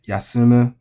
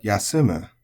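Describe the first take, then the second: First: Yasumu louder, said with the wrong accent; the incorrect yasumu; wrong pitch accent. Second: Yasumu with the peak on su, falling to mu; the proper accented yasumu; correct accent. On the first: Teacher exaggerating the wrong yasumu for learners. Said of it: "not yasumu". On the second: Teacher giving learners the correct yasumu. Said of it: "but yasumu". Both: Shown as a demonstration.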